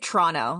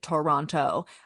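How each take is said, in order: First: The second t is dropped. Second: The second t is clearly pronounced. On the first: The speaker calls it right. "usually it's like Toronto, like T R O N O" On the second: The speaker calls it wrong. "You also don't need to pronounce it Toronto. Um, that is not how we pronounce it"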